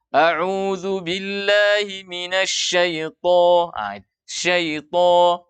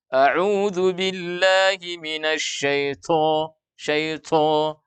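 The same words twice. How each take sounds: First: Slow recitation, SYAITHO with heavy unaspirated T; tho tanpa angin. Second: Slow recitation, SYAITHO with a puffed, aspirated T; angin keluar. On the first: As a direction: chant it slowly, no air escaping on SYAITHO. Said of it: "Tidak ada angin yang mengalir". (SYAITHO dibaca tebal tanpa angin keluar) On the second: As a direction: chant it slowly, letting air escape on SYAITHO. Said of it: "ada angin keluar gitu". (SYAITHO dibaca salah, berangin) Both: Shown as a demonstration.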